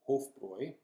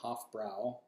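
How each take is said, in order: First: The second syllable has an 'oi' vowel. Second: The second syllable has a vowel other than 'oi'. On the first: The speaker calls it right. "makes the oi sound" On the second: The speaker calls it wrong. "not Hofbrau"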